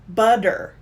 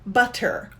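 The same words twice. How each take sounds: First: The middle consonant is a soft D sound. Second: The middle consonant is a clear T sound. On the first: "But American English will say butter, ... So we changed it to the D" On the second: "British British English will say butter"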